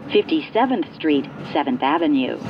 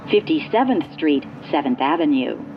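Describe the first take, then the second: No difference in how they are said.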